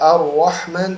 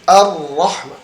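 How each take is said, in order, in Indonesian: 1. Huruf r diucapkan dengan bibir membulat seperti w. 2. Huruf r diucapkan dengan tegas tanpa membulatkan bibir. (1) "huruf ra tidak pakai waw" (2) "Tekankan huruf ra-nya"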